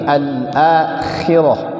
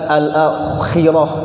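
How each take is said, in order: First: The kh sound is thin and light. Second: The kh sound is thick and heavy. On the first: The speaker calls it right. "tapi al-akhirah, dia tipis dia" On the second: The speaker calls it wrong. "bukan al-akhirah, bukan"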